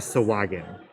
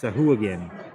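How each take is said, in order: First: The middle syllable sounds like 'wa'. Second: The middle syllable sounds like 'who'. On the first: The speaker calls it right. "I say Sawagan" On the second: The speaker calls it wrong. "a lot of people say"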